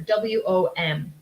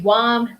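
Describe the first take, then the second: First: Each letter is said separately. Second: It is said as a single word. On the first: The speaker calls it right. "I would spell this one letter by letter" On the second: The speaker calls it wrong. "some people do pronounce them as words"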